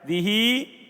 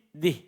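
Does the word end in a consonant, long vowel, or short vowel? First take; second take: long vowel; consonant. First: The final i vowel is drawn out long. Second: The word ends on h with no vowel. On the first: "Dibaca isba' dikasih penuh harokatnya" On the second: "dengan sukun"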